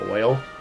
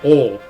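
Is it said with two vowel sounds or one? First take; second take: two; one. First: The vowel glides from o to i. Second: The vowel is a single o sound.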